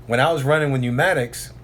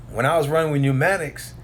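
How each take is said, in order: Both takes have the same delivery.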